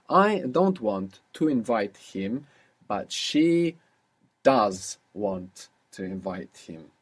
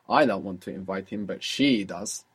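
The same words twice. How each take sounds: First: Slow dictation. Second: She lifted and leaned on; stress on she. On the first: Teacher slowly dictating a sentence to translate. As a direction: spell it out slowly for the student. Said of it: "So how would you say that?". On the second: Teacher demonstrating English stress on she. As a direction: lean on the word she to contrast. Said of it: "you will stress it with your voice". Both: Shown as a demonstration.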